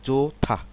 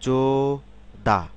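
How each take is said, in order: First: The second syllable starts with an aspirated th. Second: The second syllable starts with a plain d. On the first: "কিন্তু আসলে কি হবে যোথা" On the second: "syllable অনুসারে উচ্চারণ করি"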